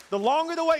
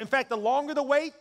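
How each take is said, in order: First: High, loud preacher's build-up; excited, raised pulpit delivery; rousing repeat. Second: Said in the usual way. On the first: Shown as a demonstration. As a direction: whip the congregation up, pitched high and loud. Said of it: "so someone gets excited". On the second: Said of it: "I'm gonna say it again".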